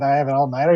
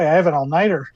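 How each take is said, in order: First: It is said in a dismayed, grumbling tone. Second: It is said in an eager, delighted tone. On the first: The all-nighter is an unwelcome chore. "he doesn't sound like someone who's just like, ah, shit" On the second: The all-nighter is something to look forward to. "He's just like, oh boy"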